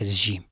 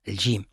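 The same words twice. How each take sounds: First: The j sound is a soft fricative. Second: The j sound is a hard affricate. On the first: The speaker calls it wrong. "وليس" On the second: The speaker calls it right. "الجيم معطشة"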